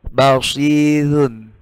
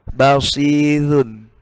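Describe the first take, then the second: Both takes have the same delivery.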